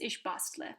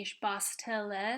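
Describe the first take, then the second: First: The vowel before the l is dropped. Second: The vowel before the l is pronounced. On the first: "if you say it quickly, it's just ich bastle" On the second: "Instead of saying ich bastele"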